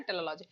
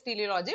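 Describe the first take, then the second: First: Teleology with a short first vowel, tel-uh-LOL-ogy; teleology opening on a short "tel"; alternative pronunciation. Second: Teleology with a long first vowel, tee-lee-OL-ogy; teleology opening on "tee-lee"; alternative pronunciation. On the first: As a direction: say teleology as tella-lology. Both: Shown as a demonstration. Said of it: "which way you pronounce it".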